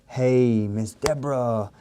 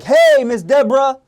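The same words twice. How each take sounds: First: The voice is lowered, calm and subdued. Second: The voice is high, bright and energetic. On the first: The caller meets the customer where they are. The speaker calls it right. "See how I'm bringing my tonality down?" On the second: The caller does not match the customer's mood. The speaker calls it wrong. "you're going to be way up here"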